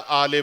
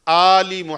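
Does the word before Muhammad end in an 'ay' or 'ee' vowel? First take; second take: ay; ee. First: The word ends with an 'ay' vowel. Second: The word ends with an 'ee' vowel. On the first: The speaker calls it wrong. "एक संगीन गलती करते हैं लोग" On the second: The speaker calls it right. "ना सल्ले है और ना ही आले है"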